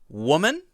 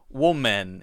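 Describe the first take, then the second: First: The word is pronounced differently from its spelling. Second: The word is pronounced the way it is spelled. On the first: The speaker calls it right. "So for these two, it's woman" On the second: The speaker calls it wrong. "we don't say woman. It, it's not actually pronounced as it looks"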